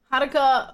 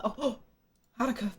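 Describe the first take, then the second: First: Calling out Haruka when the donation appears. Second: A soft gasp, then Haruka said quietly and touched; gasp of surprise. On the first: Streamer spotting Haruka's donation, calling the name out. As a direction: call the name Haruka out, louder. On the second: Streamer moved by Haruka's gift, soft surprised gasp. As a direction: caught off guard, Haruka breathed out softly. Thanking a viewer for donation. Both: Real, not acted.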